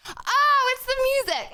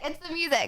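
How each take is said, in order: First: High, sudden realization; surprised realization. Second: Said in the usual way. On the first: Real, not acted. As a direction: it just clicked, surprised. Sudden realization about noise.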